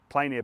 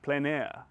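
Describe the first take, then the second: First: It is said plainly, in an ordinary way. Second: It is said in a fancy, French-like way.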